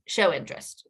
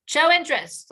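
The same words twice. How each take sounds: First: Said in the usual way. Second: "Show interest" said much higher and louder, the word "Show" punched; emphatic repeat. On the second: Shown as a demonstration. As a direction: hammer home "Show interest" the second time.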